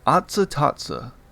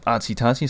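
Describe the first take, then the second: First: Each word ends in an 'ah' sound. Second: Each word ends in an 'ee' sound. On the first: The speaker calls it right. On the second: The speaker calls it wrong.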